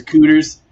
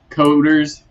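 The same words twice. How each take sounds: First: "cooters" said with an oo sound, coo-ters; "cooters" with the vowel of boot; mock Southern "cooters"; imitating Wes's pronunciation. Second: "coders" said slowly with a long o; "coders", co-ders, with the long o as in code; careful "coders" with an o sound; correct pronunciation. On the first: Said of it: "He says cooters". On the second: Shown as a demonstration. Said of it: "how he can't say".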